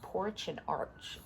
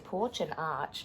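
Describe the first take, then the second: First: It is said in an American accent. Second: It is said in an Australian accent. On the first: The two words rhyme. "this is an American book, I think, so it would be porch and arch, which kind of rhyme" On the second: The two words do not rhyme. "don't rhyme in my Australian accent"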